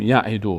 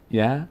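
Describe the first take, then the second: First: یعدو run together as one word; یعدو joined up with no gaps; all in a row. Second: یعدو broken into separate syllables with pauses; one by one. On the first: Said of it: "یه پشت سر هم". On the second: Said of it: "نه، یکی یکی". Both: Shown as a demonstration.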